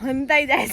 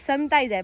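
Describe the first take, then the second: First: The first word begins with an h sound. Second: The first word begins with an s sound. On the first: This is the rustic local way of saying it. "પણ હું શું બોલી કે લેબુ હંતાઈ જાય છે" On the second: This is the standard way of saying it. "આપણે એમ કે સંતાઈ જાય"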